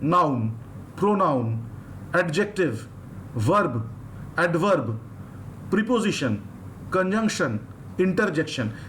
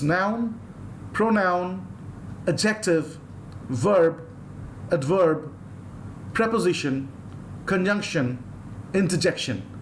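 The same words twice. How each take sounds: First: It is said in an Indian English accent. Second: It is said in a neutral Western English accent. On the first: "In India I said" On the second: "do you see how I pronounce it?"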